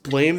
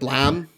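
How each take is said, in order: First: The name rhymes with 'game'. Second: The name rhymes with 'ham'. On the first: The speaker calls it wrong. "I don't think it's pronounced Blame though" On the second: The speaker calls it right. "It's probably pronounced like Blam"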